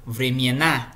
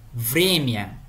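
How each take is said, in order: First: "vremiena" stressed on the last syllable, NA; stress on final syllable. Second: "Vremia" stressed on VRE; stress on first syllable. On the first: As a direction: slowly land on the NA of "vremiena". ("vremiena" com a tônica no final) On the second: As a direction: lean on the opening VRE of "Vremia". ("Vremia" com a tônica no início) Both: Shown as a demonstration. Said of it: "muda completamente a sílaba tônica".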